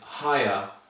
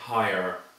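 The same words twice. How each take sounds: First: The word ends without an r sound. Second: The word ends with an r sound. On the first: "If you look in the dictionary, you might see this pronunciation" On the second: "in my pronunciation, which is I'm Irish, ... there will be an or sound at the end"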